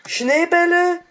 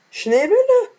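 First: High squeaky question; Schneebälle squeaked in a put-on high voice. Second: Schneebälle pushed to a shrieking top pitch, louder; even higher squeak. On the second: Acted. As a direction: squeak Schneebälle as high as it goes. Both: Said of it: "ich kann nicht so hoch sprechen".

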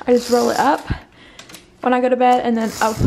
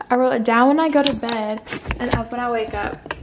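First: Rushed, tangled words, louder; jumbled wrong take. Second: Said in the usual way. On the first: Real, not acted. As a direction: trip over the words in a hurry.

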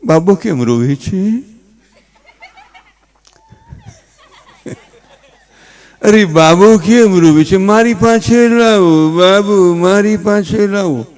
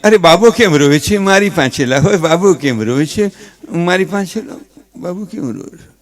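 First: Mother coaxing slowly, with rising questions; fussing mother. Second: A hint of a worried father, quick and near plain; fussing father. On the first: Retold or imitated. Mother asks why the baby cries, slow coaxing. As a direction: draw out each anxious question to the baby, slowly. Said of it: "ઓલી છોકરાની mummy". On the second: Father repeats the mother's pleas, lightly voiced. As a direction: rattle off the same pleas in a lightly voiced dad. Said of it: "ઈ છોકરાનો બાપ".

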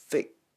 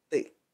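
First: "thick" with a clear TH; standard English TH. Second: "thick" simplified to "tick"; easy learner's "thick", like "tic"; beginner's version. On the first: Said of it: "Nói tiếng Anh chuẩn là phải là". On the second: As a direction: say "thick" with T instead of TH. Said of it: "Còn đối với các bạn mới học". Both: Shown as a demonstration.

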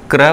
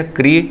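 First: क्र said as kra, short a; demonstrating kr sound. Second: क्री said as kri with long ee; demonstrating kri sound. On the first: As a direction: clip क्र short after the r. (क्र छोटा उच्चारण) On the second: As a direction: stretch the ee in क्री. (क्री लंबी ई के साथ) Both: Shown as a demonstration. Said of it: "क्र हो गया".

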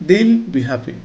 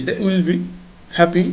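First: "they'll" squeezed into one syllable; contracted form. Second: Said in the usual way. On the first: Shown as a demonstration. Teacher says it the preferred way, "they'll" as one syllable. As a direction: run "they'll" together before be happy. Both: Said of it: "না বলে আমরা বলবো".

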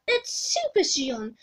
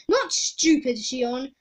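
First: "Super" stressed in slow correction; correcting stress. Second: "not" and "Stupid" hit hard, slowly; contrastive stress. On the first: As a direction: correct the name, leaning on "Super". Crystal ball corrects the king. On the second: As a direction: reject the name, punching "Stupid". Crystal ball rejects wrong name. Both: Acted.

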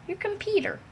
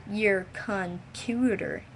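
First: Squeaky high computer; high-pitched take. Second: Stretched slow your computer; slow drawn-out take. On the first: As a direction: pitch it way up, playful. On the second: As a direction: drag every syllable out slowly. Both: Shown as a demonstration. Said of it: "Now this sounds all weird".

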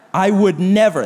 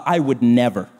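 First: Said in the usual way. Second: Low, smug self-righteous line. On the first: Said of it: "That's self-righteousness". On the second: Retold or imitated. Preacher mocking a gossip, low and smug. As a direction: sniff it out, superior. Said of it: "what real slander sounds like".

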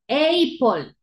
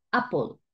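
First: "apple" mispronounced as eyy-pol; wrong long A. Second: "apple" as ah-pol, short open first vowel; correct short A. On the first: Teacher showing what we don't say, "apple" as eyy-pol. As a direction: stretch the first vowel of "apple" into a long ey. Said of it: "No decimos apple". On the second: Teacher showing what we do say, "apple" as ah-pol. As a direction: start "apple" on a brief ah. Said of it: "decimos apple". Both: Shown as a demonstration.

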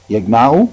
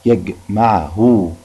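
First: Said in the usual way. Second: يجمعه very slowly, syllable by syllable; pronoun haa shown. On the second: Shown as a demonstration. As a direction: stretch out each part of يجمعه, ending on a long -hu. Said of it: "فيها هاء الضمير برضو". (نطق يجمعه ببطء مقطّعة لإبراز هاء الضمير)

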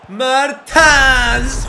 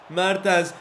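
First: Huge, high, rising roar of the name; goal shout. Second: Said in the usual way. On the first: Real, not acted. Gamer celebrating his striker's goal with a roar. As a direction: scream the scorer's name as the ball goes in.

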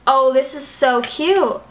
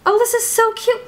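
First: Said in the usual way. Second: Put-on much higher, playful baby-talk take; cutesy squeal. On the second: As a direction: squeal it like it's adorable. Repeats line in cutesy voice.

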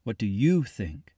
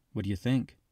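First: "you" stressed, slow, falling tune. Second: "think" stressed with a rising tune. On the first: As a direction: press hard on "you", slowly. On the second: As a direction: lean on "think" in an easy question. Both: A narrator's reading. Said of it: "You persisted".

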